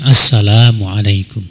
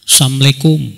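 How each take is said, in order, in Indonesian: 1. Setiap suku kata, termasuk 'la', diucapkan dengan jelas. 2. Bunyi 'la' dihilangkan, sehingga menjadi 'assamu'. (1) "Ucapkan assalamualaikum" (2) "sebagian orang mengucapkan salam yang asal"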